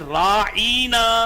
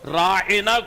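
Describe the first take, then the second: First: The middle vowel is long and stressed. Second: The middle vowel is short and unstressed. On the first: An insult calling the listener a shepherd. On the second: A polite request for attention.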